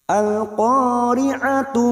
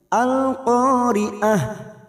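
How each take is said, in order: First: The word ends with a full tu syllable. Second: The word ends with a soft h sound. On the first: The reading continues into the next verse. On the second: The reading stops at the end of the verse.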